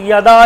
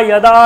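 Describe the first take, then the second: The two takes are said the same way.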